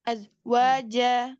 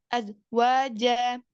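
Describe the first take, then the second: The two takes are said the same way.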